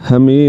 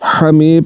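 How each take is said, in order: First: The first h is light and breathy. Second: The first h is throaty and tense. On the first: The speaker calls it wrong. "हमी नहीं पढ़ना, वरना ये हा पढ़ा जाएगा" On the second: The speaker calls it right. "हमी पढ़ना है"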